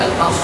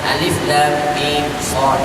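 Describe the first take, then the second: First: The letters are blended into one short word. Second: Each letter is read by its full name. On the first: The speaker calls it wrong. "jangan jadi al-mas" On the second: The speaker calls it right. "nah ini bacaan"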